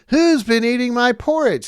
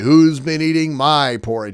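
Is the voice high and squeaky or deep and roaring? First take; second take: squeaky; roaring. First: It is said in a high, squeaky voice. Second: It is said in a deep, roaring voice.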